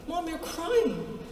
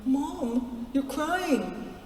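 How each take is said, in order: First: Put-on higher, softer, slow child voice; kids insisting. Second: Put-on higher, softer child voice; kids noticing. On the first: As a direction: drag it out like a concerned child. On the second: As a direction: softly imitate worried kids. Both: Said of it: "and they went".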